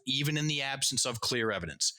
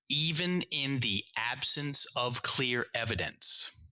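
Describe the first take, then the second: First: It is read at a faster pace. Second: It is read at a slower pace.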